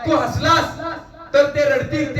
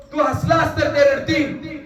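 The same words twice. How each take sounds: First: Said in the usual way. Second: तू हसलास तर ते रडतील said slowly, each word weighed; slow it down and press every word of तू हसलास तर ते रडतील; emphatic slow. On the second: Shown as a demonstration. Speaker repeating the saying to students, slower and emphatic. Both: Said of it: "repeated slower".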